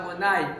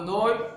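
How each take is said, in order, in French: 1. La voyelle kamatz se prononce comme un 'a'. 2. La voyelle kamatz se prononce comme un 'o'. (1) "avec un kamatz, que nous on prononce le kamatz A"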